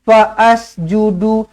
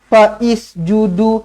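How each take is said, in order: First: An extra 'a' vowel is sounded before the s. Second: An extra 'i' vowel is sounded before the s. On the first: "Jangan dibaris-bariskan" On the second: "Jangan dibaris-bariskan"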